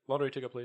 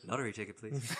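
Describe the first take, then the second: First: Flat deadpan robot order; imitating a deadpan robot buying a ticket. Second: Quiet flat deadpan echo; softer deadpan repeat of the robot line. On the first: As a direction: say it dead flat, no interest. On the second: Retold or imitated. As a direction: drop it low and dull, bored. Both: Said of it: "that deadpan delivery of".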